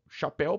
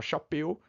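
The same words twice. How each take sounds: First: Chapéu with the open é, as in céu. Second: Chapéu said with a closed e, like chapêu; wrong closed chapéu. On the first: Teacher contrasting the two vowels for students: open chapéu. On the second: Teacher showing students the mistake: closed chapéu. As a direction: say chapéu with the closed vowel of seu. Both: Shown as a demonstration. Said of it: "pra você não falar chapéu".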